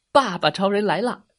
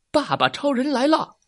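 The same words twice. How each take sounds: First: Proud, slightly high hero announcement; heroic entrance cry. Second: High, proud superhero announcement; heroic entrance cry. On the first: Daddy Superman comes to save the potatoes, heroic call. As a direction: announce the hero with some flourish. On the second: Daddy Superman arrives to save his boy, high heroic call. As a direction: proclaim the hero's arrival. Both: A narrator's reading.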